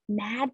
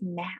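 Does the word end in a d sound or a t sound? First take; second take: d sound; t sound. First: The word ends with a voiced d sound. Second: The word ends with a voiceless t sound. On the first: This is the usual pronunciation. "mad becomes" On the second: This is how the child pronounces it. "becomes mat"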